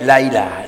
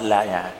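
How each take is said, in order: First: A clear glottal stop comes before 'ilah'. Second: A y-sound replaces the glottal stop before 'ilah'. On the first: The speaker calls it right. "berjelas baik" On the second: The speaker calls it wrong. "fayarudduha ya'an"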